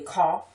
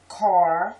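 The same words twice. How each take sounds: First: "car" as CAW, no R; local pronunciation. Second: "Car" loud with a full R; careful pronunciation. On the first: Showing how people she knows say it, "car" as caw. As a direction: drop the R in "car". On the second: Reading the word list, "Car" with R fully pronounced. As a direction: sound the R in "Car". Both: Shown as a demonstration. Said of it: "people that say car".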